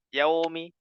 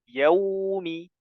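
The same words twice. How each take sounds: First: The vowel is said with flat, unrounded lips. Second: The vowel is said with fully rounded lips. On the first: The speaker calls it wrong. "Tidak boleh yaumi" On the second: The speaker calls it right. "Yang betul maliki yaumi"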